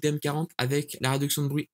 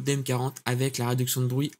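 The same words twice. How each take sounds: First: Strong noise reduction is applied to the traffic noise. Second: Light noise reduction; some traffic noise remains. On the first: "on va passer en agressif" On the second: "noise cancellation en mode slight"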